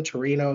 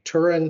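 First: "Torino" with three syllables, ending in o; Italian place name. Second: "Turin" as the English name; English place name. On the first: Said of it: "what's the official word?". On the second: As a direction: say "Turin" the North American way. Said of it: "now, do we say Turin". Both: Shown as a demonstration.

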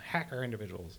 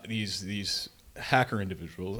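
First: Softer, fogeyish take on "Hacker individuals."; old-timer voice. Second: Said in the usual way. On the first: Shown as a demonstration. Mocking himself to his co-host as an old man. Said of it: "I'm just, I'm just so old, I'm like". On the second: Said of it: "I'm just so old".

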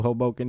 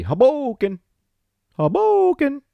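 First: Said in the usual way. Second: Very high, loud shout; celebratory holler. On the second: Pretend. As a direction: holler it like a hyped-up announcer, stretching the middle. Hollers the number one city.

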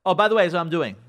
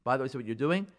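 First: Loud, curt announcement; nasty. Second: Said in the usual way. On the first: Acted. Wife announcing her plan to husband, nasty. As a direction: throw it at him as a done deal. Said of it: "she was nasty to you".

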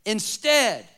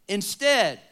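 No difference in how they are said.

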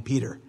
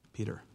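First: Said in the usual way. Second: Peter dropped soft and low; tender address. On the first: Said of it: "narration naming Peter". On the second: Acted. Jesus telling Peter his fate, ending softly on Peter. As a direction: say Peter quietly, as a gentle close. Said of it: "He says".

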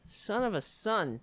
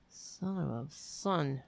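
First: Said in the usual way. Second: Softer, slow grumbled curse; muttered curse. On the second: Real, not acted. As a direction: mutter it under your breath, slowly.

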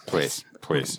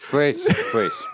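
First: Put-on low quiet old man. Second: Put-on high pleading old man. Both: Verbal tic old man.

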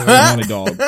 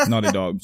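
First: Loud, high, laughing correction; laughing catch of own mistake, much higher and louder; sudden loud correction with a laugh; blurted correction. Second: Said in the usual way. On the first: Real, not acted.

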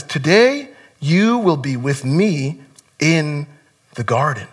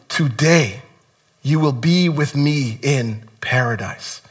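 First: Soft, slow, quiet promise; hushed, slow reassurance; tender promise. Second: Soft, slow promise; quietly tender, unhurried words. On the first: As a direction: gently restate it as garden. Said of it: "And he says". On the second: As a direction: gently reassure the dying man. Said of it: "And he said to him". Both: Retold or imitated.

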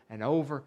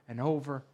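The two takes are said the same way.

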